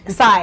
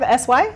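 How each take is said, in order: First: It is said as one single syllable. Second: It is spelled out as two separate letters. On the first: The speaker calls it right. "It's Sai" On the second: The speaker calls it wrong. "Did I pronounce that right"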